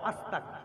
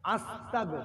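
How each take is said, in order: First: The word ends with a voiceless k sound. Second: The word ends with a voiced g sound. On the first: It changes the meaning into something harmful. The speaker calls it wrong. "খবরদার ক বলবেন না" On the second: It asks God for forgiveness. The speaker calls it right. "আ দন্ত সয় তো একার গ"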